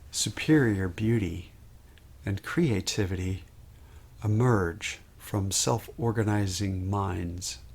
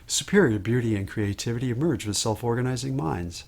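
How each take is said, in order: First: The sentence is said at a slow pace. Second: The sentence is said at a fast pace. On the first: "Sometimes I slow down" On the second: "I might increase my pace"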